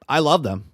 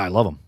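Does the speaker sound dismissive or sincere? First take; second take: sincere; dismissive. First: It sounds earnest and heartfelt. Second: It sounds offhand and insincere. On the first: The words are genuinely meant. The speaker calls it right. "he actually means what he's saying" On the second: The words are said without really meaning them. The speaker calls it wrong. "He's not saying some bullshit where he's just like"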